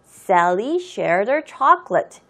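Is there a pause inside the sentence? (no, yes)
no. It is read in one breath, without pausing. "이 정도는 우리가 한 호흡에 읽을 수 있는 거예요"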